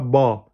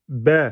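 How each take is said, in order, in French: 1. La voyelle est ouverte, comme 'a'. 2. La voyelle est fine, comme 'e'. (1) "pas ba" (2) "B et pas ba"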